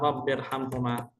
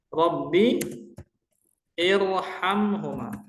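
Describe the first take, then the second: First: The two words run together without a vowel. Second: A separate vowel starts the second word. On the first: The speaker calls it right. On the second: The speaker calls it wrong.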